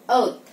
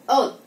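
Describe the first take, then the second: Both takes have the same delivery.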